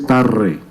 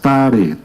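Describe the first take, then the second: First: The r is a strong rolled trill. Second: The r is a single quick tap. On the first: This is the sound the word needs. The speaker calls it right. "Ahí no dice tarre" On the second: This is how the misspelled sign reads. The speaker calls it wrong. "tomen solamente esas sílabas"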